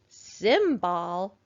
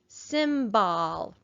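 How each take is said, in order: First: The second syllable has a full short o vowel. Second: The same.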